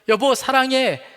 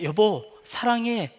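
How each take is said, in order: First: It is said with growing force and emphasis. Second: It is said plainly, without extra force.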